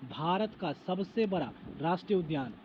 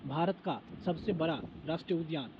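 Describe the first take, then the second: No difference in how they are said.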